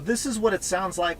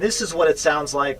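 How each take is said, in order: First: The voice is heard plainly, without speaker amplification. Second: The voice is amplified through the cabin speakers. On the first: "with me just speaking normally as if I'm talking to the front passenger" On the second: "with the passenger talk feature on"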